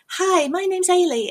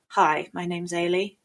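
First: The greeting sounds bright, sunny and friendly. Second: The greeting sounds cold, hostile and unfriendly. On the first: The character is friendly and welcoming. "One's bright and sunny" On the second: The character wants to be left alone. "the other one's like, get out of my fucking face"

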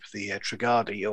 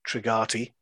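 First: The name is said with a D sound. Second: The name is said with a T sound. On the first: This is how most people say it. "everybody else says it with a D" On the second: This is how the Minbari say it. "as the Minbari tend to pronounce it"

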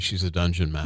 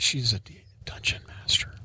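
First: The phrase is spoken aloud. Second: The phrase is whispered. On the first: It sounds like an ordinary fact. The speaker calls it right. "That's better" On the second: It sounds like a creepy secret. The speaker calls it wrong. "Don't whisper that"

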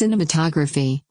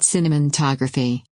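First: It is said without an N sound inside. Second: It is said with an N sound inside. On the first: The speaker calls it right. "There's no N in the middle" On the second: The speaker calls it wrong. "not cinematography"

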